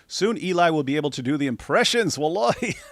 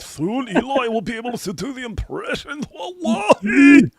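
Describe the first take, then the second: First: It is said in his plain reading voice. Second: It is said in a put-on dawah preacher voice.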